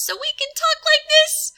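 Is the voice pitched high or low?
high. The voice is pitched high and tense. "to stretch the vocal folds so we can talk like this"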